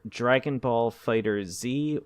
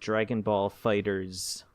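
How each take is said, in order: First: The title ends with a separate spoken letter Z. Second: The title ends with a plain s sound. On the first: "it's either Dragon Ball Fighter Z" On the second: "or Dragon Ball Fighters"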